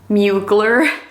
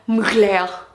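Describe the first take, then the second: First: The name is said with an American pronunciation. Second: The name is said with a non-American pronunciation. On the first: The speaker calls it wrong. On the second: The speaker calls it right.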